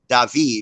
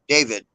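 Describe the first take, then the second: First: The name is said with a Spanish pronunciation. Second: The name is said with an American English pronunciation. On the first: This is how the town is called locally. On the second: This is how foreigners call the town.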